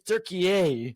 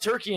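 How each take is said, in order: First: It is said as Türkiye, with three syllables. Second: It is said as the English Turkey. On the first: This is the new name. "It's T U R K I Y E" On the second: This is the old name. "is not Turkey anymore"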